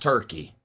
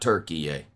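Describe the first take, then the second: First: The name ends without any extra final syllable. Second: The name ends with an extra 'yay' syllable. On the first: The speaker calls it right. "I'm still just calling it Turkey" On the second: The speaker calls it wrong. "they added an unnecessary E at the end"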